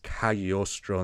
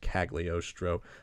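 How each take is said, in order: First: The name is pronounced the Italian way. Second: The name is pronounced an anglicized way. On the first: The speaker calls it right. "If you speak Italian, it's" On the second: The speaker calls it wrong.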